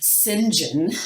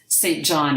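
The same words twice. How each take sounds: First: The name is said in the British pronunciation. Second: The name is said in a non-British pronunciation.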